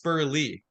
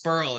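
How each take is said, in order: First: The name ends with an added vowel sound. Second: The name ends without a final vowel sound. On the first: The speaker calls it right. "the E is not silent. It's Spurly" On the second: The speaker calls it wrong. "Everybody says Spurl. It's like, no, the E is not silent"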